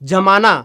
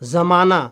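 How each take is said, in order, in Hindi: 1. शब्द की शुरुआत j ध्वनि से होती है। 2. शब्द की शुरुआत z ध्वनि से होती है।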